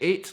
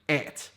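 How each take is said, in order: First: It sounds like the number eight. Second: British accent, it sounds like et.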